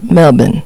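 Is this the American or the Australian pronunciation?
Australian. It is pronounced the way Australians say it. The speaker calls it right. "It's Melbourne"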